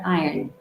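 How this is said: The R sound is mostly dropped. "the other one is the British, wherein the R is kind of"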